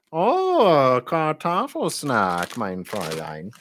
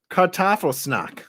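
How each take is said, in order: First: Very drawn-out, swooping mock-German; hammed-up German accent, slow and softening; funny German accent. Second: High mock-German, falling at the end; slowed-down German accent; funny German accent. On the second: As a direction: read it out in comic German. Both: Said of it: "the funniest accent ever".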